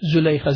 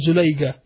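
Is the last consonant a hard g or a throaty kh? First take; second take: throaty kh; hard g. First: The last consonant is a throaty kh sound. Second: The last consonant is a hard g sound. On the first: The speaker calls it right. "It's Zulaykha with a kha, K-H at the end" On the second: The speaker calls it wrong. "not Zulayga"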